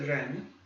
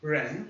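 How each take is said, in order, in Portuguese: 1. O primeiro som é como o R do inglês. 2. O primeiro som é como o R do inglês.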